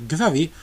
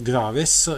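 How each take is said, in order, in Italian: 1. Il nome si dice con la pronuncia francese. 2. Il nome si legge con la pronuncia italiana. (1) "la pronuncia reale è Gravé" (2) "in italiano eh, lo possiamo pronunciare Graves"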